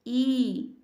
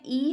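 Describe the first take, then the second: First: The vowel is drawn out and long. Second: The vowel is held briefly and short. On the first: "दीर्घ स्वर में है ई" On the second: "ह्रस्व स्वर में ई है"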